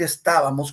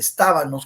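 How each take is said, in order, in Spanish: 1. La palabra se dice con sonido m. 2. La palabra se dice con sonido n. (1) "en vez de decir estábamos con M" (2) "dice estábanos con N"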